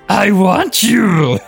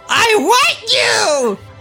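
First: It is said flatly, without passion. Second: It is said with fiery passion.

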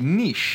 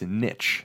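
First: The word is pronounced the French way. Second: The word is pronounced the American English way. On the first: "So in French, it would be" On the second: "But in English, in American English, it's"

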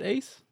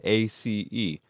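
First: It is said as a single word. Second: It is spelled out as separate letters. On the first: "do you pronounce it Ace?" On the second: "Or do you just say A-C-E?"

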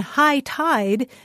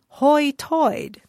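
First: The vowels sound like standard American 'high tide'. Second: The vowels sound like 'oi', as in 'hoi toid'. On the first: "the expression high tide" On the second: "In the so-called Ocracoke brogue, the expression high tide comes out more like hoi toid"

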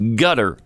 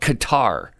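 First: The name sounds like the English word gutter. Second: The name does not sound like gutter. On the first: The speaker calls it wrong. "I'm not going to call it gutter" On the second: The speaker calls it right. "I'm going to call it Qatar"

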